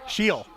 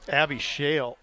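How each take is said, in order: First: The name is said with an 'ee' vowel. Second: The name is said with an 'ay' vowel. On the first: The speaker calls it right. "Public address announcer Darren Dysomar is coming through in the clutch for me" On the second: The speaker calls it wrong. "Sorry, still working on the pronunciations here"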